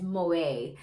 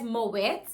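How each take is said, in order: First: The word ends without any t sound. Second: The word ends with an audible t sound. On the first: "or do you pronounce it as Moe?" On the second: "do you pronounce it as Moet"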